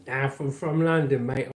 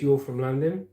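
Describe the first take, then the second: First: Put-on London accent. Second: Said in the usual way. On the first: Shown as a demonstration. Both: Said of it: "I sound like this if I was from London".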